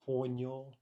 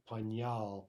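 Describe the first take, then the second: First: The stress is on the first syllable. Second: The stress is on the second syllable. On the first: The speaker calls it right. "it jumps back actually onto the prefix por" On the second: The speaker calls it wrong. "so we don't get pañal ... as we might expect"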